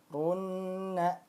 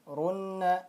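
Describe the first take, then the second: First: The doubled n is held for two beats. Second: The doubled n is held for one beat. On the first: The speaker calls it right. "harus ditahan dulu dua harokat" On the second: The speaker calls it wrong. "kurang tepat kalau kita bacanya satu ketukan saja"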